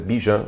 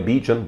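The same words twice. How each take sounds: First: The name begins like the word 'biju'. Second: The name is said with English pronunciation. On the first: The speaker calls it right. "mas é Bijan Robinson, tipo biju" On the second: The speaker calls it wrong. "Em inglês seria Bijan Robinson"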